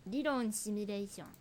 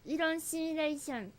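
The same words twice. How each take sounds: First: Said in the usual way. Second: Put-on Korean accent. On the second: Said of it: "韓国語なまりで喋ってくれてるんですよ".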